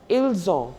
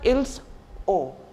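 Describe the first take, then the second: First: The two words are linked together as one. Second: The two words are said separately, without linking. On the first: The speaker calls it right. "we uh, pronounce it together" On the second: The speaker calls it wrong. "It's not like"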